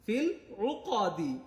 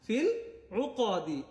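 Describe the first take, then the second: Both takes have the same delivery.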